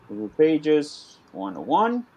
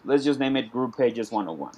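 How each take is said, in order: First: Slow, spelled-out dictation while typing. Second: Said in the usual way. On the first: Shown as a demonstration. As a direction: read each word slowly as you type it. Repeats title while typing it.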